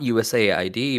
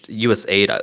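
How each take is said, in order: First: Every letter is spelled out separately. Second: The last part is said as the word aid. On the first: "like we're now pronouncing it like the full letter acronym" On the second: "is always how I was pronounced"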